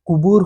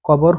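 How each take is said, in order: First: The first vowel is a rounded 'u' sound. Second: The first vowel is an open 'o' sound. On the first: The speaker calls it right. "কফের উচ্চারণ সে যদি বাংলাতে করতে যায় কুবুর হবে" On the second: The speaker calls it wrong. "কবর হবে না উচ্চারণ"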